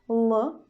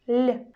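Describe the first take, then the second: First: The consonant is hard, not palatalized. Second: The consonant is soft, palatalized. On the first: "hard sound L" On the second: "soft L"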